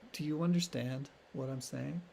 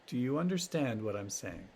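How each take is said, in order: First: The question sounds condescending and superior. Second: The question sounds empathetic and matter-of-fact. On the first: The listener is made to feel slow. The speaker calls it wrong. "don't say it condescendingly" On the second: The speaker simply wants to check understanding. The speaker calls it right. "It's like empathetically. Kind of factual"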